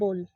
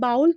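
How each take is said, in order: First: The vowel is a plain 'oh' sound. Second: The vowel glides like 'ow' in 'cow'. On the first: The speaker calls it right. "जो इसका सही pronunciation है ना वो है बोल" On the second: The speaker calls it wrong. "बाउल तो ninety percent लोग बोलते हैं"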